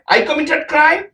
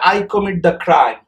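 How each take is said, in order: First: It is asked as a rising question. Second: It is said as a falling statement.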